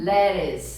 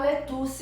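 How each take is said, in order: First: The middle consonant is a soft r-like tap. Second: The middle consonant is a clear t sound. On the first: The speaker calls it right. "é como se fosse um L E R I S" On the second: The speaker calls it wrong. "ninguém vai falar lettuce mais"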